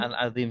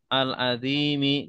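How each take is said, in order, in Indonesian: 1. Kata ini diakhiri konsonan, vokal akhirnya tidak dibaca. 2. Kata ini diakhiri dengan vokal pendek. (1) "jangan dibaca al-azim saja" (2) "Jadi kalau baca semua harokat dibaca"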